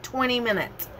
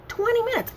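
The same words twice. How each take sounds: First: Said in the usual way. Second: "Twenty minutes" pitched much higher in disbelief; emphatic disbelief. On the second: Real, not acted. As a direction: hit "Twenty minutes" high and incredulous. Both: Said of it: "I kid you not".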